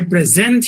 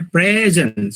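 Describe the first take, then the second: First: The stress is on the second syllable. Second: The stress is on the first syllable. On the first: It is a verb meaning to give. "When the stress is on the second syllable, it is a verb" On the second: It is a noun meaning a gift. "when the stress is in the first syllable"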